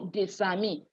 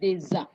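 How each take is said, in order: First: The words are linked with an S sound. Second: The words are linked with a Z sound. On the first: The speaker calls it wrong. "Some people go doing de- Desami. It's not Desa" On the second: The speaker calls it right. "Liaison says, Elysion says it's Deza. Z sound"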